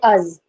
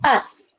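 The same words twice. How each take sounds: First: The word ends in a sound other than s. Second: The word ends in a plain s sound. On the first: The speaker calls it wrong. "We never say us. The sound should not come" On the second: The speaker calls it right. "the pronunciation is us, right?"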